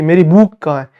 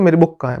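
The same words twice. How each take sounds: First: The vowel in book is drawn out long. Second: The vowel in book is kept short. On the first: The speaker calls it wrong. "ऐसा बुक थोड़ी पढ़ते" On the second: The speaker calls it right. "ऐसे बोलते मेरी बुक कहाँ है"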